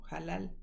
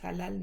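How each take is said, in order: First: It starts with a harsh throaty h. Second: It starts with a soft breathy h. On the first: The speaker calls it right. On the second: The speaker calls it wrong.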